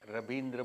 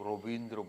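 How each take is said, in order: First: The name begins with an 'ra' sound. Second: The name begins with an 'ro' sound. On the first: This is the speaker's own everyday way of saying it. "मैं uh, रवींद्र बोलता हूँ" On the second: This is the Bengali way of saying it. "आप लोग रोबींद्र बोलते हैं"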